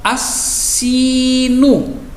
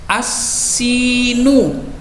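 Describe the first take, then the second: The two takes are said the same way.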